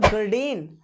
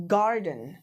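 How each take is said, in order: First: Garden stressed on the last syllable, gar-DEN; short gar, long full DEN in garden; wrong word stress. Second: Garden stressed on GAR; long GAR, weak den in garden; correct word stress. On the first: Teacher showing what is not garden, stressed on DEN. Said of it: "This is not garden". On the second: Teacher showing the correct garden, stressed on GAR. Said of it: "this is garden". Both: Shown as a demonstration.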